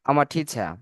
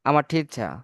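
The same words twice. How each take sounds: No difference in how they are said.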